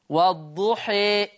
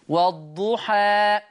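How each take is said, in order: First: The final vowel is close to an e sound. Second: The final vowel is an open a sound. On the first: "إمالة كبرى" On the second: "فتح"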